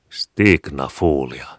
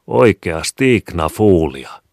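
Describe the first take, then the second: First: Stignafuulia said slowly and carefully, each syllable drawn out; slow, blunt Stignafuulia, as if it explains everything; child's made-up word. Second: Oikea Stignafuulia, louder and slow, insisting she should understand; the boy explains again to his mother, insistent; explaining, puzzled. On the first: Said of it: "Selittävämmin". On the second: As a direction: spell it out, amazed she doesn't get it. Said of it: "Selittävämmin, mutta samalla kuin ihmetellen". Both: A narrator's reading.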